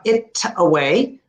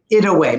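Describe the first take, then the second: First: "it away" with a crisp, separate T; "it away" with a clear T before the vowel; hard T. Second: "it away" with a smooth D-like tap; flapped T. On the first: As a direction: stop sharply on the T of "it away". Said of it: "not it away". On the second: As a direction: run "it away" together with a tapped D. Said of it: "make it like a D". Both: Shown as a demonstration.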